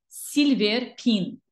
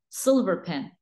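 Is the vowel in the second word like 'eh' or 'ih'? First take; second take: ih; eh. First: The second word has an 'ih' vowel. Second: The second word has an 'eh' vowel. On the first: The speaker calls it wrong. "Wrong. This is a wrong pronunciation" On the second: The speaker calls it right. "It's silver. Silver pen"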